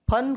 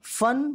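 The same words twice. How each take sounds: First: "फन" as "phan", an aspirated p. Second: "फन" as "fan", with a true f; nukta f sound. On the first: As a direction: start "फन" with both lips and a puff. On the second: Teacher showing the word for skill, "फन" with f. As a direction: start "फन" with teeth-on-lip f. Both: Shown as a demonstration. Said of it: "नुक्ता लगते ही".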